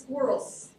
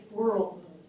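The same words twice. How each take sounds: First: The word ends in a voiceless s sound. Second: The word ends in a voiced z sound. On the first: "Those guys have "sa" in this environment" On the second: "most English speakers actually pronounce that as "z""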